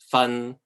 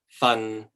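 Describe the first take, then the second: First: The syllable is said in the third tone. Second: The syllable is said in the sixth tone. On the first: It means to teach or accuse. "The third one means um, to to accuse someone, to to teach something" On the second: It means a portion. "This one is a portion"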